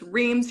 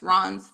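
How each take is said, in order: First: The name is said with an American pronunciation. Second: The name is said with a French pronunciation. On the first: This is how people in the US say it. "it's Reims here" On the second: This is how people in France say it. "it's Ron's there"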